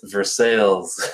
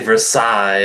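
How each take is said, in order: First: It is pronounced the local English way. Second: It is pronounced the French way. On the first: "It's Versailles" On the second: "as they do en français"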